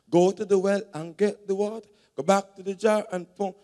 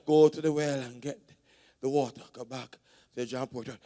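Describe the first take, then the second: First: It is said with quick rhythmic pep. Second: It is said plainly, without added energy.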